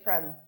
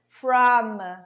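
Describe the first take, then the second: First: The vowel in the word is reduced. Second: The vowel in the word is full. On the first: "reducing the vowels, Cut the O" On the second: "instead of saying from"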